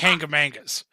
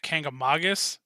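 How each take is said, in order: First: It is said in the casual local way. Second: It is said in the careful official way. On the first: This is how people in the area usually say it. The speaker calls it wrong. "the way that a lot of people up here say it, myself included" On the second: This is how it is technically supposed to be said. The speaker calls it right. "the way that it's technically supposed to be pronounced"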